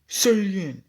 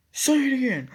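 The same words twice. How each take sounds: First: Raised, higher challenge; demanding challenge. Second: Escalating challenge. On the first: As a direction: push him to repeat it, raised. Dave challenges narrator to repeat. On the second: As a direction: push harder, voice jumping way up. Dave repeats challenge, escalating. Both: Retold or imitated.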